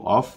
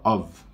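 First: The word ends with an f sound. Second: The word ends with a v sound. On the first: "com F" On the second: "quase que um V"

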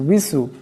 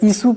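First: It starts with rounded lips and a w. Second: It starts with a plain i, lips unrounded. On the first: The speaker calls it right. "দুটি ঠোঁট গুল হয়ে যাবে" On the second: The speaker calls it wrong. "এখানে ইসু পড়লে হবে না"

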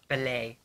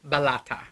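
First: The name is said with a French-sounding ending. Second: The name is said with an Italian-sounding ending. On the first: The speaker calls it right. "It's probably Bellet" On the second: The speaker calls it wrong. "I'm saying it kind of Italianized"

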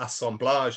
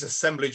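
First: It is pronounced in a French-sounding way. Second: It is pronounced in an English-sounding way. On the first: The speaker calls it wrong. "as opposed to assemblage, I just can't use the word assemblage, it sounds too French" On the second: The speaker calls it right. "I'm going to use assemblage"

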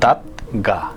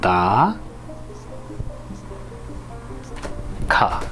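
First: The middle consonant is a plain g sound. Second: The middle consonant is an aspirated k sound. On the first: The speaker calls it wrong. "দাঁত গা এরকম হওয়ার কথা, কিন্তু তা না হয়ে" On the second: The speaker calls it right. "ক্ষয়ের উচ্চারণ হয়"

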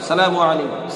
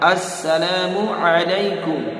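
First: The opening 'as' syllable is left out. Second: The opening 'as' syllable is clearly said. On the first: The speaker calls it wrong. "আমরা কি মূলত সালাম দিয়ে থাকি কেমন সালামু আলাইকুম" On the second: The speaker calls it right. "এই আস শব্দটা আমাকে আপনাকে উচ্চারণ করতে হবে"

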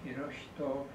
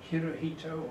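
First: The name is said with Japanese pronunciation. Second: The name is said with English-style pronunciation. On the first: This is how the name sounds in Japan. "or in Japanese pronunciation" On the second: This is how the name is known abroad. "known outside Japan as Hirohito"

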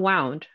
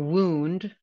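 First: The vowel is not a long 'oo' sound. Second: The vowel is a long 'oo' sound. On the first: The speaker calls it wrong. "not wound" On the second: The speaker calls it right. "OU like group, soup, or wound"

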